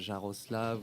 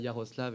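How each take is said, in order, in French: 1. Le nom commence par un son 'zh'. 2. Le nom commence par un son 'y'. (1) "et non pas Jaroslav" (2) "le prononce bien Yaroslav"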